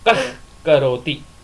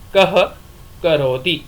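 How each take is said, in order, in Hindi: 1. k से पहले का h अर्ध विसर्ग है। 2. k से पहले का h पूर्ण विसर्ग है। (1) "जब आप जिह्वा मूल्य करोगे तो उसका उच्चारण होगा" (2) "पूर्ण विसर्ग होगी तो उसका उच्चारण होगा"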